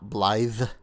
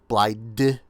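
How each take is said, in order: First: The name ends with a th sound. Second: The name ends with a d sound. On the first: The speaker calls it right. "not Blythe, like you should be" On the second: The speaker calls it wrong. "I was pronouncing it Blide"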